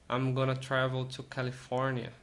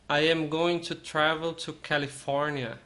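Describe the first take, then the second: First: It is shortened to 'I'm gonna'. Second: 'I am going to' is said in full.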